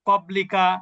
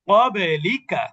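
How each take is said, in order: First: The stopped consonant ends quietly with no bounce. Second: The stopped consonant ends with a short echoing bounce. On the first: The speaker calls it wrong. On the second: The speaker calls it right.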